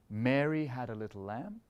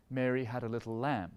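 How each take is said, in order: First: "Mary" lifted and leaned on, rest released; stress on MARY. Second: "lamb" leaned on, falling tune at the end; stress on LAMB. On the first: Conductor showing the phrase weighted on Mary. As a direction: hit "Mary", let the line fall away. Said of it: "Are we saying". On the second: Conductor showing the phrase weighted on the lamb. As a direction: build toward "lamb" and land it. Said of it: "are we emphasizing the lamb". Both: Shown as a demonstration.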